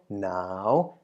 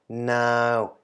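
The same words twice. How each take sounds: First: The syllable is said with a rising tone. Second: The syllable is said with a mid tone. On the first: "and also the rising tone" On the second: "middle tone version"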